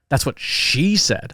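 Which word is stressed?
she. The emphasis falls on the word she. It was this person who said it. "Oh, the person. That's that's you're talking about the person"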